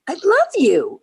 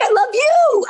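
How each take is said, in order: First: Higher-pitched retold declaration of love; excited mock declaration; gushing. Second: Very high, louder imitated gush; hammed-up high-pitched outburst of love; excited gushing. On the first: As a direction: gush it out fondly. Retold gushing exchange with director. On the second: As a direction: squeal the declaration back excitedly. Director gushes back, retold.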